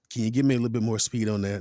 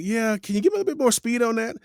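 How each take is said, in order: First: Director's repeated request. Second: Higher, quick imitated director; director's request. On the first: Retold or imitated. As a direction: imitate the director repeating it, quick and level. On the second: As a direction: mimic a director asking in a raised, hurried voice. Director's first request for speed.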